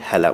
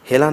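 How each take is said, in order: First: The first vowel is an open ae sound. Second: The first vowel is a close e sound. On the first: The speaker calls it right. "বলব" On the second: The speaker calls it wrong. "না বলে"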